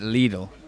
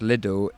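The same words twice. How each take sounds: First: The name is said the German way. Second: The name is said the British way. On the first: "the German brand, they pronounce it Lidl" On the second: "in the U K, it's pronounced Lidl"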